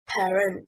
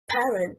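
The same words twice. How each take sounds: First: The stress is on the second syllable. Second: The stress is on the first syllable. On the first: The speaker calls it wrong. "stressing on the second syllable, is incorrect" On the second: The speaker calls it right. "stressing on the first syllable"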